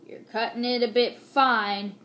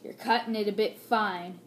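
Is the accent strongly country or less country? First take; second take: strongly country; less country. First: It is said with a strong country accent. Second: It is said with a milder country accent.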